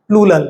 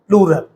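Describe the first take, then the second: First: The second consonant is pronounced as an L. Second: The second consonant is pronounced as an R. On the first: The speaker calls it wrong. "बहुत सारे बच्चे इसको प्लूरल ना बोलकर प्लूलल बोलते हैं।" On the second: The speaker calls it right. "इसे क्या बोलना है?"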